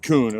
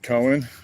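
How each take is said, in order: First: The name is said as one syllable, like coon. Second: The name is said with two syllables, like Cohen. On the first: The speaker calls it right. "You say it as coon" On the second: The speaker calls it wrong. "I'm sure I probably screwed it up"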